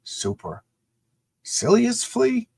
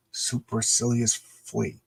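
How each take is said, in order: First: Very slow, puzzled rising "Supercilious flea?"; reading aloud haltingly. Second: Slow, careful sounding out; reading aloud haltingly. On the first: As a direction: drag out "Supercilious" like a confused kid. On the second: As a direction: sound out each syllable of "Supercilious flea". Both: Shown as a demonstration. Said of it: "struggling to read that word balloon".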